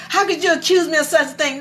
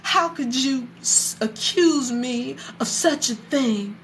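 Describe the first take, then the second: First: Quick, high-pitched offended comeback; imitating an affronted wife, rattled off; indignant retort. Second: Slow, higher-pitched wounded indignation; imitating an affronted wife, drawn out; offended mother. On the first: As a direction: fire back the protest fast and high. Mother's retort repeated. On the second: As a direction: act aghast at the accusation, taking your time. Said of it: "Noah's mother was like".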